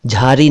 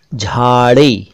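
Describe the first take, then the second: First: झाड़ी said as jhari, plain r; wrong r for ड़. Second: झाड़ी drawn out with retroflex flap ड़; correct flap ड़. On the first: Teacher rejects this version, झाड़ी with plain r. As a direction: put र for ड़ in झाड़ी. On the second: Teacher models a word for learners, झाड़ी with flap ड़. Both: Shown as a demonstration. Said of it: "नहीं".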